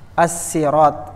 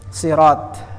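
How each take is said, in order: First: The first s sound is plain and light. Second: The first s sound is emphatic and heavy. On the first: This is the original form of the word. "pakai sin" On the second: This is how the Quraysh said it. "pakai shad"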